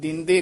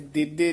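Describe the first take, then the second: First: The first syllable is nasalized. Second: The first syllable has no nasal sound. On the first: The speaker calls it right. "ਇੱਥੇ ਬਿੰਦੀ ਹੈ, ਉਚਾਰਨ ਦਿੰਦੇ ਕਰਨਾ ਹੈ" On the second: The speaker calls it wrong. "ਇੱਥੇ ਦਿੱਦੇ ਨਹੀਂ ਕਰਨਾ ਹੈ"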